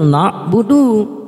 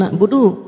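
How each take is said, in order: First: It is recited slowly and carefully. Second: It is recited fast and rushed. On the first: The speaker calls it right. "kalau dibaca tartil" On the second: The speaker calls it wrong. "Kalau dibaca kenceng"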